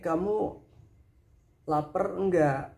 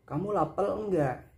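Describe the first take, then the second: First: The r sound is pronounced clearly. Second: The r sound is lisped like baby talk.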